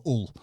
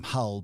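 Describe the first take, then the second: First: "Hull" with the h dropped and the vowel of "full"; northern 'Ull. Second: "Hull" with a clear h and the short vowel of "hut"; standard Hull. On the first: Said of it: "we might call that place that he came from Hull". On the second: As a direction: say "Hull" the southern way, h sounded. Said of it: "but he actually came from Hull". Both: Shown as a demonstration.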